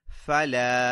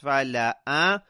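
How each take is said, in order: First: It ends on a long vowel with nothing after. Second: An extra short vowel is voiced at the end. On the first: "if you imagine a sukoon on the alif at the end" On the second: "with a fatha on the alif at the end"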